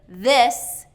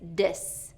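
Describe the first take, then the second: First: It starts with a th sound. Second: It starts with a d sound. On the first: The speaker calls it right. "instead of this" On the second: The speaker calls it wrong. "it's dis"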